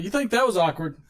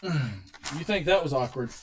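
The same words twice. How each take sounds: First: Said in the usual way. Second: Dramatic slow teaser. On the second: Shown as a demonstration. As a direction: draw it out to hook the audience. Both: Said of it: "Get ready for this story".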